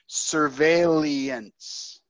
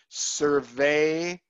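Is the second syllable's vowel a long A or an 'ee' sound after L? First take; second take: ee after L; long A. First: An 'ee' sound comes right after the L. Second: The second syllable has a long A sound. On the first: The speaker calls it wrong. "you're transposing it after the L's. So you're, to my ear, you're saying surveillance" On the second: The speaker calls it right. "that sound is A, the long A sound"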